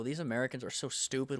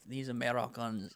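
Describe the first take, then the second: First: Said in the usual way. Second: Brief put-on French accent. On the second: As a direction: say it like a Frenchman, half-committed. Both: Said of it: "I'm gonna stop this French accent".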